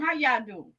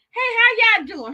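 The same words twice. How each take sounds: First: Said in the usual way. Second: Excited greeting. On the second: Real, not acted. Greeting viewers joining.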